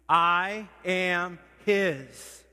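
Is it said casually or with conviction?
conviction. It is said with strong, heartfelt conviction.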